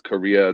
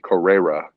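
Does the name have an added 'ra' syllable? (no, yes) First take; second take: no; yes. First: The name is said without an added syllable. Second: The name is said with an added syllable. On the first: The speaker calls it right. "even if I tell them it's Korea" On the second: The speaker calls it wrong. "throws in an extra syllable that's not there"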